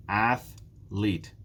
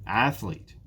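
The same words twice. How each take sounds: First: Athlete split with a gap, Ath, lete; syllable by syllable. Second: Said in the usual way. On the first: Shown as a demonstration. Teacher counting syllables for learners, "Athlete" split in two. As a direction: break "Athlete" into two separate beats. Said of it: "There are two syllables in athlete". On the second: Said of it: "There are two syllables".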